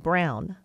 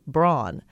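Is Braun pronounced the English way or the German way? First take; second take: German; English. First: Braun is said with its German vowel sound. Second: Braun is said with an anglicized vowel sound. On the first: The speaker calls it right. "in German it would be Braun" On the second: The speaker calls it wrong. "English-speaking people mispronounce it by saying Braun"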